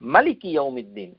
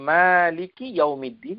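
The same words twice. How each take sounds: First: The first vowel of maliki is short. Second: The first vowel of maliki is long. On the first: God is the king of the Day of Judgment. "আলিফ না দিয়ে" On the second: God owns the Day of Judgment. "এভাবে তেলাওয়াত করি"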